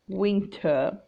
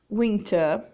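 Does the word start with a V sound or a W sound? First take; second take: W sound; W sound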